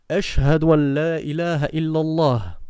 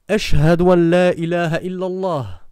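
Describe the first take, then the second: The two takes are said the same way.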